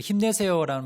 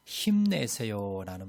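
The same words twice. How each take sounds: First: Higher and louder, bursting with encouragement; 힘내세요 with a loud, lifted cheer. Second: Said in the usual way. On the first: Shown as a demonstration. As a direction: shout it like a pep cheer. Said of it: "들으면 좀 힘이 나지요". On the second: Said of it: "우리 "힘내세요"라는".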